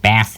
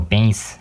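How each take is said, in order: First: "bass" with a short a, rhyming with mass. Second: "bass" with a long a, sounding like base. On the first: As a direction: say "bass" like the fish. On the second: Presenter offering another pronunciation, long-a bass. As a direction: say "bass" to rhyme with face. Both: Shown as a demonstration. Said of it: "or however it's pronounced".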